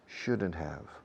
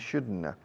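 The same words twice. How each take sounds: First: It is said slowly with each sound clear. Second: It is said quickly with sounds run together. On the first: This is an easier version for learners. "For you" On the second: This is how native speakers say it. "That's native speech"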